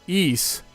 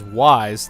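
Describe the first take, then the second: First: The name is said without a starting w sound. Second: The name is said starting with a w sound. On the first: The speaker calls it right. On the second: The speaker calls it wrong.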